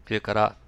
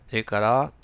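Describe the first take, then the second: The two takes are said the same way.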